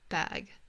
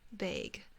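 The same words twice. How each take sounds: First: The word is said with an American accent. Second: The word is said with a Canadian accent. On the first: "Americans say bag" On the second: "I say bag"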